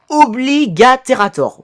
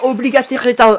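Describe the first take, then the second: First: The word is pronounced cleanly and carefully. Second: The word is garbled, with sounds slipped. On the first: The speaker calls it right. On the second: The speaker calls it wrong.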